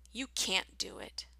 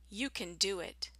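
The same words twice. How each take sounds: First: "can't" with a long cat vowel. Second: "can" reduced to kin; short can. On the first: Teacher's listening drill, "can't" with a long vowel. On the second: Teacher's listening drill, "can" said short. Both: Shown as a demonstration. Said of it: "Listen for the difference".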